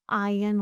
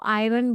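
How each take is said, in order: First: "आयरन" as eye-un, no r sound; silent r. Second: "आयरन" with the r sounded; common mispronunciation. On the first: Teacher corrects iron for students, "आयरन" as eye-un. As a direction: drop the r in "आयरन", saying eye-un. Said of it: "आर silent होता है". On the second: Teacher quotes how many say iron, "आयरन" with audible r. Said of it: "बहुत लोग इसको आयरन बोलते हैं". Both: Shown as a demonstration.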